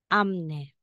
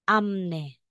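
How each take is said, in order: First: An m sound comes before the n. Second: The same.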